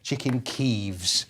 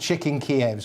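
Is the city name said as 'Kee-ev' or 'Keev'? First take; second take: Keev; Kee-ev. First: The name sounds like 'keev', Ukrainian-style spelling. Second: The name sounds like 'kee-EV', two clear syllables. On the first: The name the city itself prefers. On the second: The older, familiar name of the city.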